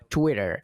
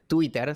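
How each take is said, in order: First: The T sounds are soft, almost like a flap. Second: The T sounds are strong and sharply marked. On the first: It sounds like an American speaker's version. "te diría algo como Twitter" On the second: It sounds like a local Spanish speaker's version. "suena muy fuerte"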